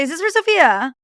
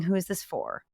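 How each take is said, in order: First: High, loud eager Is this for Sophia?; eager giveaway question. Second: Said in the usual way. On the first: Shown as a demonstration. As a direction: blurt it out too trustingly. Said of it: "Don't say". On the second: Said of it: "never get in an Uber without saying".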